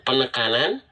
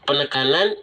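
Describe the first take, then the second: Both takes have the same delivery.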